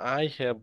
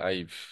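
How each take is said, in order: First: Both words are said in full. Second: The two words are run together into one. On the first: "আমরা বললাম আই হ্যাভ bought a news paper" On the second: "একসাথে উচ্চারণ হবে আইভ"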